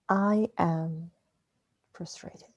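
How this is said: The stress is on I am.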